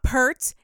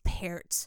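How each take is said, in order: First: The vowel sounds like the one in 'pert'. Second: The vowel sounds like the one in 'pear'. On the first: The speaker calls it wrong. "It's not Pert" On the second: The speaker calls it right. "It's like pear with a T"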